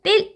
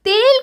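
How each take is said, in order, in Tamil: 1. e உயிரெழுத்து குறில். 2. e உயிரெழுத்து நெடில். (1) "சொல்ல மாட்டோம்" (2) "தான் சொல்லுவோமோ"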